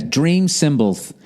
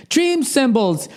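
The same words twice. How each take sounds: First: Said in the usual way. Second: Much higher, slow, put-on announcer voice; high, drawn-out mock commercial read. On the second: Shown as a demonstration. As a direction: sell the brand name like a radio ad. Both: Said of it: "start the advertising with a free read".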